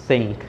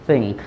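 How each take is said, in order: The two takes are said the same way.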